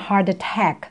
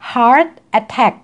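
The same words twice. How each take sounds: First: The two words are linked together quickly. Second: The two words are said separately.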